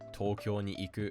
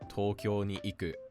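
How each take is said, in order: First: The verb iku stays flat with no drop. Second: The verb iku has an accented pitch drop. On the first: The speaker calls it right. "The correct way to say this" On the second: The speaker calls it wrong. "is wrong"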